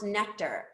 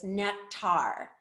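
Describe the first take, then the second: First: NECTAR said as NECK-ter, stress on the first syllable; official pronunciation. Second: NECTAR said as neck-TAR, stress on the second syllable; common mispronunciation. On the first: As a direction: say "nectar" with a reduced "ter" ending. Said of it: "it's pronounced nectar". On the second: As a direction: say "nectar" with a full "tar" at the end. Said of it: "most people pronounce this". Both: Shown as a demonstration.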